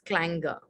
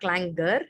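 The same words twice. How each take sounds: First: The final R sound is dropped. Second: The final R sound is pronounced. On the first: The speaker calls it right. "without the R sound" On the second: The speaker calls it wrong. "so it's not clangor"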